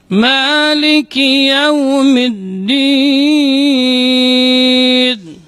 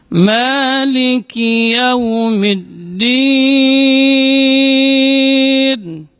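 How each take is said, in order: The two takes are said the same way.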